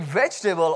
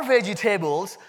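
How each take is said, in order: First: "vegetable" as VEJ-tuh-bul; three-syllable "vegetable", unstressed ending; corrected pronunciation. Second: Indian-accented "vegetables", VEJ-ih-TAY-buls; four-syllable Indian English "vegetables". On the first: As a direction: say "vegetable" with the middle squeezed out. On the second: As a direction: play up the Indian accent, "table" sounded in full in "vegetables". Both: Shown as a demonstration. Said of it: "That's my Indian accent coming out".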